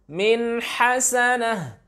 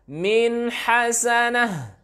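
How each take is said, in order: No difference in how they are said.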